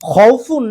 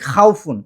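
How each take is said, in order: First: The first syllable sounds like 'khou'. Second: The first syllable sounds like 'khau'. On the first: The speaker calls it right. "সঠিক উচ্চারণটা হচ্ছে ... খৌফুন" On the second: The speaker calls it wrong. "যেটা ভুল"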